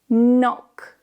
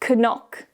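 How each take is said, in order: First: No K sound is heard at the start. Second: A K sound is heard at the start. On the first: The speaker calls it right. "but knock" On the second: The speaker calls it wrong. "is not pronounced as knock"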